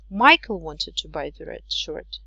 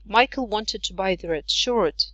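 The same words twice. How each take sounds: First: The strongest stress falls on the word Michael. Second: The strongest stress falls on the word shirt. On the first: It was this person, not someone else. "not Jake" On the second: It was a shirt, not another garment. "not the red jumper"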